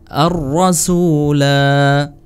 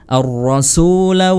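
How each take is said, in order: First: The final vowel is drawn out long. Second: The final vowel is short, running onward. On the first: The reader stops at this word. "Kalau waqaf atau berhenti dibaca panjang" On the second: The reader continues to the next words. "kalau wasal atau sambung"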